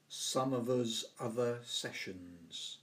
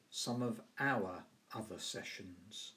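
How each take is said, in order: First: "some of us other sessions" with "us" in place of "our", said slowly; Yorkshire dialect "us". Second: Said in the usual way. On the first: Shown as a demonstration. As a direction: say "us" for "our", Yorkshire style, unhurried. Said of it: "he talked of". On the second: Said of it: "In standard English, we would say".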